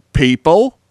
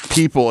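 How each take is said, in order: First: "people" swung sharply upward; Aussie upward inflection. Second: Said in the usual way. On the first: Retold or imitated. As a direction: imitate her with a loud, rising "people". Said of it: "you went up in the middle". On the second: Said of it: "and you said".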